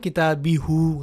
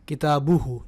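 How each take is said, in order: First: An i follows the b, then a short u. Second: A u follows the b, then a short u. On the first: "अब आप ये तो नहीं कहेंगे ना किताबी हु, गलत हो जाएगा।" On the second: "ना ही आप कहोगे किताबू हु, नहीं।"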